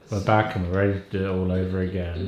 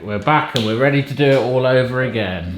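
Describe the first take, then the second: First: It is said in a solemn, serious tone. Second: It is said in a light, upbeat tone.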